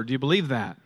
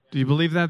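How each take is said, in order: First: Said in the usual way. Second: "Do you believe that?" asked again louder, pressing the congregation; louder repeat. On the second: Shown as a demonstration. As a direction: push the question harder the second time.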